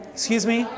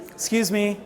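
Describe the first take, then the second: No difference in how they are said.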